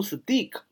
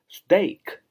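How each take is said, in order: First: Steak 读成 stik，元音错读成长音 i; 故意把steak念成steek; 错误读法示范. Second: Steak 读 /steɪk/，元音是 ei; 慢慢念出正确的steak，拖长 ei; 正确读法示范. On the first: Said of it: "也不读steak". (老师示范错误发音：steak 念成 stik) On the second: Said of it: "读steak". (老师放慢示范正确发音：steak 读 steɪk) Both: Shown as a demonstration.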